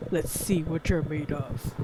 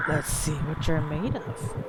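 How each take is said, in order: First: Slow low rasping menace; creepy hoarse voice. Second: Slow low creepy whisper-voice. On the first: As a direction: growl it slowly like a ghost. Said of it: "I'm trying to read a creepy's voice". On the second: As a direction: read it slow and menacing. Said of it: "I don't know if I can make a hoarse voice". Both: Shown as a demonstration.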